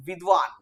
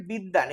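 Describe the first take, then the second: First: বিদ্বান with a clear v, "vidvan"; Sanskrit-style pronunciation. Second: বিদ্বান said with a doubled d and no v; everyday Bengali pronunciation. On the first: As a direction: sound the v after the d in বিদ্বান. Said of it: "এটা উচ্চারণ হওয়া উচিত". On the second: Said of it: "এটা actually আমরা বলি হচ্ছে". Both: Shown as a demonstration.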